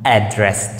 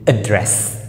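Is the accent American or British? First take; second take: American; British. First: It is said with an American accent. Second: It is said with a British accent. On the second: "British English"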